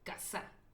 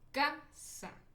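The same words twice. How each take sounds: First: The stress is on the last syllable. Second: The stress is on the first syllable. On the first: "Si mi acento imaginario lo pusieran en la última sílaba" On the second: "lo pongo en la penúltima sílaba, ... que es como normalmente lo decimos"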